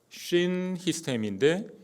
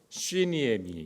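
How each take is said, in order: First: The two parts are said as separate words. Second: The two parts are merged with changed sounds. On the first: "두 개의 단어가 이렇게 떨어져 있는 건데" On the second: "두 개를 딱 붙여놓으면 좀 발음이 바뀌어요"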